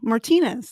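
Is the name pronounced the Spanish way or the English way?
Spanish. The name is said with Spanish pronunciation. This is how the name would normally be said. "they didn't pronounce them as like, you know"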